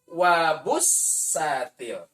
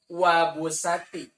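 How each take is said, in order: First: The s sound is held long and doubled. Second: The s sound is short and single. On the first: The speaker calls it right. "pasang tasdid" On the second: The speaker calls it wrong. "hilang tasdid"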